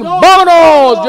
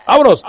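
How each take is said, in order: First: Vámonos shouted high and drawn out; slow, loud, high vámonos; loud announcer call. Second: Said in the usual way. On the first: Acted. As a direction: launch the show with a big vámonos. Announcing his grumpy old man show. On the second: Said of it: "El Viejo Gruñón".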